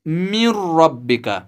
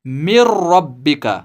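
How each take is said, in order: First: मिर रब्बिका said as min rabbika with the n sound kept; wrong nasal reading. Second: मिर रब्बिका with the nun merged into the r, doubled rr and no nasal hum; correct merged recitation. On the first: Teacher showing students the mistake, nun sounded. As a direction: keep the nun audible in मिर रब्बिका, the way it should not be. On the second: Teacher showing students the right Quran reading, merged and unnasalized. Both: Shown as a demonstration. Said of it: "न कि मिर रब्बिका".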